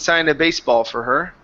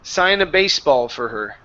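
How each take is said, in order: First: The pitch rises on the final word. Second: The pitch falls on the final word. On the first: The speaker calls it wrong. "you came up at the very end" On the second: The speaker calls it right. "we need to come down with the voice"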